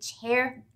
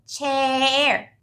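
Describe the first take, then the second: First: The word is said short and normal. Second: The word is stretched out long.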